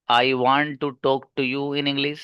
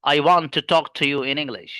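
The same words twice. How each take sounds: First: Very slow word-by-word English; halting, each word spaced out like a beginner; slow, broken English. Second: Slow, connected delivery with a punched "want"; fluent native flow. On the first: Teacher mimics a beginner, slow word-by-word. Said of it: "पहला वाला बच्चा है वो कह रहा है". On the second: Teacher models English in its natural rhythm, stress on "want". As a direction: stress "want" and glide the rest together. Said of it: "कुछ इस अंदाज से बोला जाएगा". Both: Shown as a demonstration.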